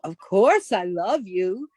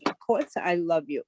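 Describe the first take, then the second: First: It is said with warm emotion. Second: It is said flatly, without emotion.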